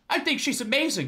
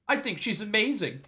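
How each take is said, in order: First: It is said loudly. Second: It is said quietly and shyly.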